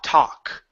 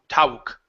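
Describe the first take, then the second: First: The vowel is a steady open 'ah' sound. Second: The vowel glides like 'ow', lips rounding. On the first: The speaker calls it right. "It's ta, talk" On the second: The speaker calls it wrong. "We don't say tau, tauk. It's not ow"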